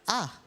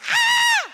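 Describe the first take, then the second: First: It is a quiet, plain exclamation. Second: It is a loud, exaggerated scream.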